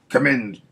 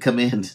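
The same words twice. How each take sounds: First: A weak attempt at a Batman voice. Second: A convincing Batman voice is used.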